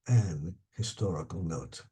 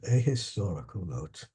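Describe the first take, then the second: First: The article is said as 'an' before historical. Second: The article is said as 'a' before historical. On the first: This is the Commonwealth English form. "as they say in uh, Commonwealth English" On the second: This is the North American form. "In North American English, we say a a, a historical"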